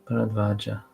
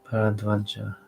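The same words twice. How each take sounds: Both takes have the same delivery.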